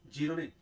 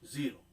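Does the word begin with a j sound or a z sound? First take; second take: j sound; z sound. First: The word begins with a j sound. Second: The word begins with a z sound. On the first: The speaker calls it wrong. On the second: The speaker calls it right. "जीरो होता है"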